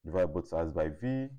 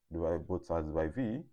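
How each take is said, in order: Both takes have the same delivery.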